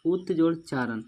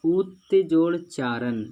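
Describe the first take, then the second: First: Said in the usual way. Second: उत्जोड़ Charan said slowly and a bit louder, each part clear; slow, spelled-out example. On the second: Shown as a demonstration. (धीरे और ज़ोर से, साफ़-साफ़ बोला गया) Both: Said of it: "क्या बोला".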